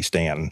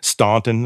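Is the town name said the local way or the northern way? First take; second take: local; northern. First: The name is said the local way. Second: The name is said the northern way. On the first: The speaker is from the area. The speaker calls it right. "you're considerable local if you say Stanton" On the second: The speaker is not from the area. The speaker calls it wrong. "that's the northern way, and you're not from around here"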